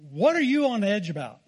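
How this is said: It is said in a dramatic, harsh way.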